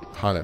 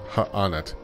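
First: The name is said smoothly without any break. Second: The name has a break between its syllables. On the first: The speaker calls it right. "They don't pronounce the apostrophe in Hannet stuff. It's just Hannet" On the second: The speaker calls it wrong. "not Ha-Anet"

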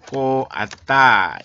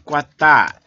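First: Both vowels are said as separate syllables. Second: The two vowels merge into one syllable.

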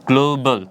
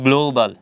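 No difference in how they are said.

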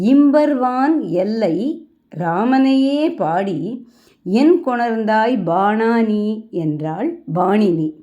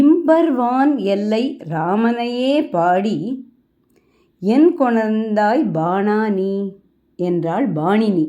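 Both takes have the same delivery.

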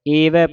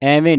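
First: The word begins with an 'e' vowel. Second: The word begins with an 'ai' vowel. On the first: The speaker calls it right. "ਏਵੈ ਪੜਨਾ ਸੰਗਤ ਜੀ" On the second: The speaker calls it wrong. "ਐਵੇਂ ਨਹੀਂ ਪੜਨਾ"

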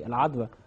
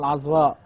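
First: The word ends in a short vowel sound. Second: The word ends in a long vowel and glottal stop. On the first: This is the common everyday form used in Egypt. "لما حد يقول مسيحي العذرة" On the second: This is the proper form of the name. "هي اسمها العذراء"

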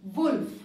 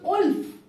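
First: The word begins with a clear w sound. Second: The word begins with a plain vowel sound. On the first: The speaker calls it right. "whereas it is wolf" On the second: The speaker calls it wrong. "Similarly, it becomes wolf"

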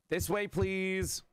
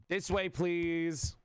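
No difference in how they are said.

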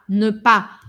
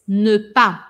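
Both takes have the same delivery.

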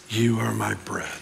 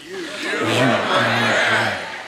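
First: It is said plainly, without conviction. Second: It is said with strong conviction.

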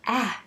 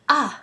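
First: The vowel is said as the English short sound. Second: The vowel is said as in European languages. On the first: The speaker calls it right. "It's A" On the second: The speaker calls it wrong. "not A, as it is in many European languages"

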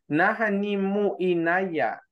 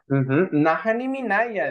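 First: The u is kept, giving a broken mu inaya. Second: The u is dropped, giving one smooth word minaya. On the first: The speaker calls it wrong. "Si lo probara con mu, no queda bien. Suena como trabado ahí" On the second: The speaker calls it right. "Es minaya"

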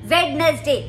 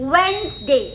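First: The word is said with three syllables. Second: The word is said with two syllables. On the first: The speaker calls it wrong. "कई लोग वेडनेसडे बोलते हैं ... गलत pronunciation है" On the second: The speaker calls it right. "सही pronunciation है वेंसडे"

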